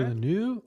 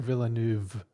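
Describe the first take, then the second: First: The final v sound is dropped. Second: The final v sound is pronounced. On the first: "I've heard people not pronounce the V on the end of his last name" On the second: "and I've heard people pronounce it"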